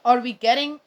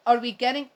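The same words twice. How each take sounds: The two takes are said the same way.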